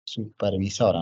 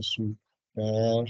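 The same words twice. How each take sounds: First: Said in the usual way. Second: SUPERVISORA slowly broken into long syllables; syllable-by-syllable dictation. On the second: Real, not acted. Teacher writing Supervisora for students, drawn-out dictation. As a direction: spell out Supervisora by sound, slowly.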